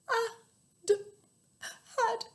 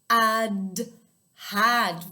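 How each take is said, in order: First: It is said in a sad, gloomy voice. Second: It is said in a bright, happy voice. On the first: "in a really sad voice" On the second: "in a really happy voice"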